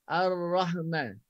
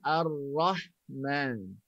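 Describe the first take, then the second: First: The h sound is clipped, rushing into man. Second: The h sound is held out fully before man. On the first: The speaker calls it wrong. "sebutan ha tu dah di kita dah sekat, dah sekat. Dah dah ada kita nak cepat tukar kepada man" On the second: The speaker calls it right. "Sedangkan ar-rahman"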